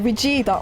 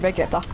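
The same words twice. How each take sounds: First: The name is said with Japanese-style pronunciation. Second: The name is said with Finnish-style pronunciation. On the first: "as soon as I'm speaking English, I go for the Vegeta, which is actually the correct pronunciation because it's Vegeta in Japanese too" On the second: "when I'm talking normally in Finnish, I just say Vegeta"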